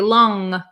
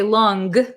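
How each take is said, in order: First: It ends with a nasal sound, no G. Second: It ends with a hard G sound. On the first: The speaker calls it right. "but we say long, long. So we're kind of, it's kind of a nasally sound" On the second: The speaker calls it wrong. "We don't say long"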